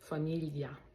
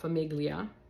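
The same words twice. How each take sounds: First: The middle sound is a twisted, palatal l. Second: The middle sound is a plain l. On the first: The speaker calls it right. "It just gives it a little, mm, a little something extra" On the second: The speaker calls it wrong. "It's not famiglia. Uh, that would be like a silent G"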